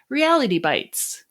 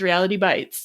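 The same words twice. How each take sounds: First: The stress falls on the word reality. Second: The stress falls on the word bites. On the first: Bites is a noun: little pieces of reality. "But I can't say it that way" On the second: Bites is a verb: reality hurts. "It's reality bites"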